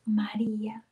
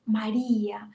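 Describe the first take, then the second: First: Hushed, loving call of María; tender whisper. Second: Said in the usual way. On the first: A narrator's reading. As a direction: breathe the name María as a gentle call. Jesus calls Mary by name.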